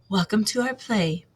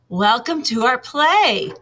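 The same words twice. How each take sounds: First: It is said at a normal, quieter volume. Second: It is said in a louder voice.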